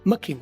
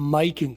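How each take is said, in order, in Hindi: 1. 'my' शब्द में छोटा, हल्का स्वर है। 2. 'my' शब्द में लंबा, पूरा स्वर है। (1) "सबसे ज्यादा मा किंग, म किंग, और वो भी शॉर्ट म किंग" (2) "सबसे कम माई किंग"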